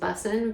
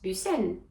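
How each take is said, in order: First: The name is pronounced with English sounds. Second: The name is pronounced with French sounds. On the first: "my last name, for example, is Bussin" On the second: "but in um, French, it's Bussen"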